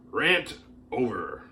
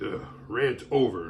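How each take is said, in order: First: Said in the usual way. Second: Slow, smug sigh of rant over; mock self-important sigh. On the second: Mocking Facebook posters who write rant over, with a smug sigh. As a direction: sigh it out like a smug poster who thinks they said something big. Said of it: "type two lines into Facebook and be like".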